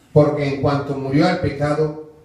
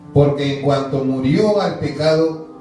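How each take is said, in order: Both takes have the same delivery.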